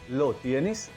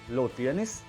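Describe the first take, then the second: First: It is said with a questioning tune. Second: The same.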